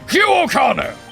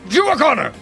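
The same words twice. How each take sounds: First: It is yelled at a slower pace. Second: It is yelled at a faster pace.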